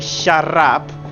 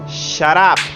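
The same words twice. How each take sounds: First: The t is a trilled double R. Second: The t is a single light tap. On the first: The speaker calls it wrong. "we are pronouncing double R, like in perro" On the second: The speaker calls it right. "We can say shut up"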